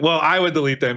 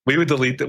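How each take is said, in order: First: I picked out with a falling tone; stress on I. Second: Said in the usual way. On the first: Real, not acted. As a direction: correct it by leaning on the word I. Corrects "we" to "I.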